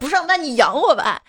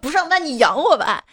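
First: It is said in a harsh, demanding tone. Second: It is said in a harsh, demanding tone.

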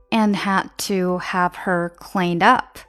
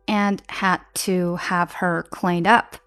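Both takes have the same delivery.

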